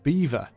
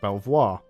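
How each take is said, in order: First: It is said as 'beaver', like the animal. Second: It is said as 'bell-vwar', following the spelling. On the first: The speaker calls it right. "it's pronounced Beaver" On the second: The speaker calls it wrong. "a lot of people read this and would pronounce it Belvoir, okay? Which is how it's spelled"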